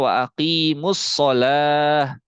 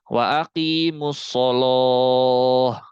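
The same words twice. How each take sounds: First: The L in sholah sounds light and thin. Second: The L in sholah sounds heavy and thick. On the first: "Kalau kita kan bacanya wa aqimus sholah" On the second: "Tapi Imam Warosh dibacanya tebal"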